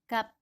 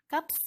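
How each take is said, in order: First: The word ends with a p sound. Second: The word ends with an s sound. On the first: The speaker calls it right. "Bacanya cukup kap" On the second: The speaker calls it wrong. "Kaps gitu? Bukan ya"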